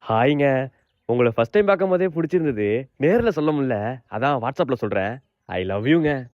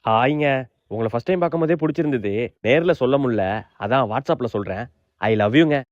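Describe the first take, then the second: First: It is said in a soft, romantic voice. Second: It is said in a plain, ordinary voice.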